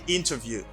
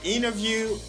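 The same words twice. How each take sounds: First: The T after the N is clearly pronounced. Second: The T after the N is dropped entirely. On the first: "they pronounce the T and the word interview" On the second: "they don't pronounce the T in these words"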